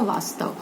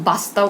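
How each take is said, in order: First: वास्तव said softly with a clear v; वास्तव said correctly as vastav; correct v sound. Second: वास्तव said as bastav with a b; वास्तव mispronounced as bastav; wrong b sound. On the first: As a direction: start वास्तव with a v, not a b. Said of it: "क्या होता है?". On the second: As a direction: start वास्तव with a b. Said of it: "वास्तव नहीं होता". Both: Shown as a demonstration.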